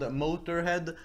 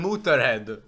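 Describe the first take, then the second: First: "Motorhead" the English way, moh-ter-head; English pronunciation. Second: "Motorhead" with oo then ö, moo-tur-head; Swedish pronunciation. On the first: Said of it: "a band called". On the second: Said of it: "in Sweden we call them". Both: Shown as a demonstration.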